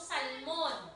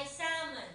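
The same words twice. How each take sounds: First: "salmon" with the L sounded, "sal-mon"; Tagalog reading. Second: "salmon" with silent L, "sa-mun"; English reading. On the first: Teacher contrasting languages, "salmon" said Tagalog-style as "sal-mon". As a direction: Tagalog "salmon", every letter said. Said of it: "sa Tagalog, binabasa natin". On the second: Teacher giving the English reading, "salmon" said "sa-mun". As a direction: drop the L in "salmon". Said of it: "ang basa nito sa English". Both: Shown as a demonstration.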